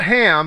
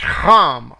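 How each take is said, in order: First: The word starts with a plain h sound. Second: The word starts with a throaty kh sound. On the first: The speaker calls it wrong. "It's not Ham" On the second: The speaker calls it right. "it's Ham, with the German Ach"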